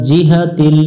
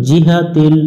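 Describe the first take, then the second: No difference in how they are said.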